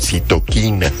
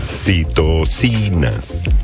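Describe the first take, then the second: First: The third syllable starts with a k sound. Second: The third syllable starts with an s sound. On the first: The speaker calls it wrong. "muchos dijeron citoquinas" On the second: The speaker calls it right. "la pronunciación correcta de las citocinas"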